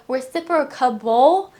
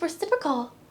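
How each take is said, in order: First: The word ends with an extra '-able' syllable. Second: The word ends with a short '-cal' syllable. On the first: The speaker calls it wrong. "I was always adding a reciprocable" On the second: The speaker calls it right. "it's just reciprocal"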